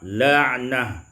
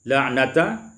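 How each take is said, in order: First: The word ends with a breathy h. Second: The word ends with a t and vowel.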